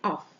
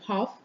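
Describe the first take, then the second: First: The h sound at the start is dropped. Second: The h sound at the start is pronounced.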